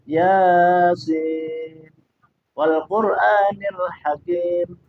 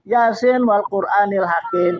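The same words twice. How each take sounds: First: The vowel in 'sin' is held long. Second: The vowel in 'sin' is said short. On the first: The speaker calls it right. "Yasin tuh sinnya tuh panjang" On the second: The speaker calls it wrong.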